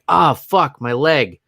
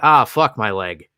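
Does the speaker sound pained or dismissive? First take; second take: pained; dismissive. First: It sounds pained, lamenting the hurt leg. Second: It sounds dismissive, shrugging off the hurt leg.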